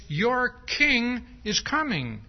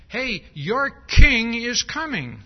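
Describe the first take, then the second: First: Slow, emphatic "king"; your king, said slow and sure; stress on king. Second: Loud, slow, high proclamation. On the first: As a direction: lean on "king" with a slow, steady read. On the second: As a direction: announce the king's arrival loudly. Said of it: "which says". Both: Shown as a demonstration.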